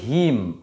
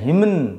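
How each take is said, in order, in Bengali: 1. শব্দটি m দিয়ে শেষ হয়, কোনো n নেই। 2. শব্দটির শেষে একটি যোগ করা n ধ্বনি আছে। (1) "আমরা এটাকে বলি হিম" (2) "এটা হিমন এরকম নয়"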